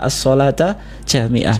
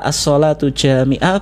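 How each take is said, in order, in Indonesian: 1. Kata sholat berakhir dengan vokal a. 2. Kata sholat berakhir dengan vokal u. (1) "boleh dibaca as-sholata jami'ah" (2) "Boleh dibaca as-sholatu jami'ah"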